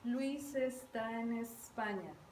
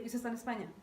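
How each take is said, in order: First: The sentence is spoken very slowly. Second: The sentence is spoken quickly. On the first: "lo dije muy despacio" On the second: "la velocidad cambió"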